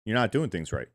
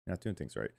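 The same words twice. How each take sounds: First: Said in the usual way. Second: Much softer, lower repeat; low mumbled repeat; muttered. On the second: Real, not acted. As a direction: mutter it under your breath.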